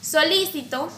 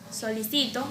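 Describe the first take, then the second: First: The stress is on the second syllable. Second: The stress is on the third syllable.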